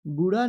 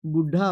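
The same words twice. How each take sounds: First: बूढ़ा with unbreathed ḍ, "booḍa"; no puff of air in बूढ़ा; higher बूढ़ा as the mistake; wrong pronunciation. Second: बूढ़ा with breathed ḍh; firm "booḍ-ḍha" for बूढ़ा; correct pronunciation. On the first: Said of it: "बूढ़ा नहीं होता है". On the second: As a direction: push air through the middle of बूढ़ा. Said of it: "ढ की मात्रा". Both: Shown as a demonstration.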